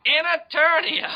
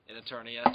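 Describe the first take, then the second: First: High, slow booming announcer; dramatic announcer shout. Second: Said in the usual way. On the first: Acted. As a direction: belt it like a trailer voiceover.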